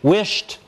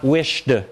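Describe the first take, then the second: First: The word ends in a voiceless t sound. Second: The word ends in a voiced d sound. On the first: The speaker calls it right. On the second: The speaker calls it wrong.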